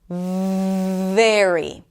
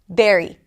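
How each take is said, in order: First: The first consonant flows out as a fricative. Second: The first consonant is a short stop, like b. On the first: "This is a fricative. That means that it, it's going to take you a little bit of time to pronounce this sound" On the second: "some people might pronounce it as an oral stop"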